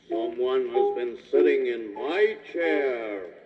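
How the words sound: It is said in a great big voice.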